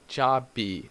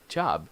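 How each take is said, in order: First: An extra vowel follows the final b sound. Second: The final b is soft with no vowel. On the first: The speaker calls it wrong. "So you don't say be, job be" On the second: The speaker calls it right. "it's just like a, a puff of air"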